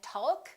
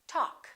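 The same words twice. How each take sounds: First: The L sound is pronounced. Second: The L sound is silent. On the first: The speaker calls it wrong. "We don't say walk and talk" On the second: The speaker calls it right. "we say walk, talk"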